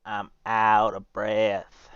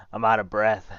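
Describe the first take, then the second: First: Slow, winded repeat; tired, drawn-out admission; out of breath. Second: Panting after a run; breathless from running back; out of breath. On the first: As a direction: catch your breath between words. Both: Real, not acted.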